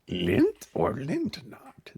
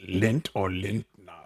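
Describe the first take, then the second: First: It is said in a Yoda impression. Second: It is said in his normal voice.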